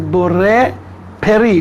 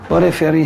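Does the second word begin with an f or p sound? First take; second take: p; f. First: The second word begins with a p sound. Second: The second word begins with an f sound. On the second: This is how the speaker's own community says it. "We say Feri from the reasons I mentioned now"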